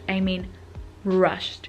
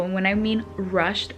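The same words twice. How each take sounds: First: Pause, then "rushed" said slowly and weighted; stress on rushed. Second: Said in the usual way. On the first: Shown as a demonstration. Telling how fast they drove, "rushed" given heavy weight. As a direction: lean hard on "rushed" after a beat. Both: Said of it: "when I mean rushed, I mean rushed".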